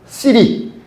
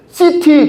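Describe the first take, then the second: First: The middle consonant is a light r-like flap. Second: The middle consonant is a clear t sound. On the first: The speaker calls it right. "우리 영어학자들은 시티 아니다. 시리" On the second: The speaker calls it wrong. "당신들 도시 이야기할 때 시티 그러지?"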